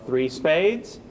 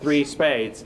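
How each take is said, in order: First: The voice rises at the end like a question. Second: The voice falls at the end, firm and final. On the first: The bidder is unsure whether to go on to game. "Should I be bidding four or should I not?" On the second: The partner should not bid further. "That means don't bid, game partner"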